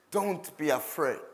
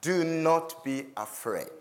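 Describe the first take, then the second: First: Said in the usual way. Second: Slow, calm reassurance; calm reassuring voice of a leader; calmly. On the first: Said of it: "Moses says". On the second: A narrator's reading. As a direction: settle them gently, unhurried. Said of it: "calmly he says to them".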